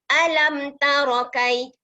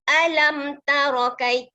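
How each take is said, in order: Both takes have the same delivery.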